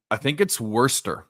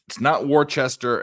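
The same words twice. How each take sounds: First: Worcester said as wuh-ster, middle letters dropped; Worcester clipped to two syllables, wuh-ster; local pronunciation. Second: Worcester said as spelled, wor-chester; Worcester with every letter spoken, wor-chest-er; not this way. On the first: Telling the chat how locals say it, Worcester said wuh-ster. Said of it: "I think that's how they say it". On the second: Correcting the chat's guess, Worcester as spelled. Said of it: "If you had to pronounce that word". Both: Shown as a demonstration.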